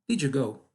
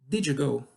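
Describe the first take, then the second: Both takes have the same delivery.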